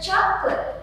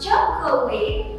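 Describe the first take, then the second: First: The word is said with two syllables. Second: The word is said with three syllables. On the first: The speaker calls it right. "There are two syllables there" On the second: The speaker calls it wrong. "not chocolate"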